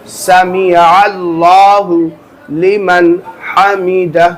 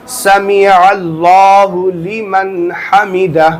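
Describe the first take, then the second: The two takes are said the same way.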